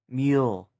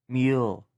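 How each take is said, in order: The two takes are said the same way.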